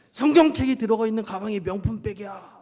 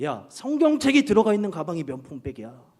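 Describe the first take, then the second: First: Emphatic repeat. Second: Emphatic declaration. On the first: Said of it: "이렇게 하면서". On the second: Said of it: "제가 이렇게 말했어요". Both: Retold or imitated.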